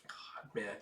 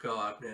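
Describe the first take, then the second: First: Breathless whisper of real grief; heartbroken whisper. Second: Said in the usual way. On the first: Real, not acted. Viewer reacting to a sad scene, choked whisper. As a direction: whisper it, too moved to speak. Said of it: "that just broke my damn heart".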